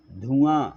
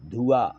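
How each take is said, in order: First: धुआं with a nasalised final aa, louder; nasal ending. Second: धुआं said as plain dhu-aa, louder; धुआं with an open oral ending; without nasal. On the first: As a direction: end धुआं in the nose. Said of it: "चांद बिंदी". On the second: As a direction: drop the final nasal from धुआं. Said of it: "बिंदी लगाना". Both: Shown as a demonstration.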